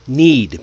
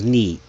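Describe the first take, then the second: First: The final d sound is clearly pronounced. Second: The final d sound is left off. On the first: The speaker calls it right. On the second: The speaker calls it wrong.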